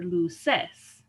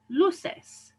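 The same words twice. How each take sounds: First: "luces" misstressed as lu-CES; wrong final stress. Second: "luces" as LU-ces; penultimate stress. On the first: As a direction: punch the last syllable of "luces". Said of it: "I don't say vela". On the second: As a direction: stress the first syllable of "luces". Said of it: "emphasize the second to last syllable". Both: Shown as a demonstration.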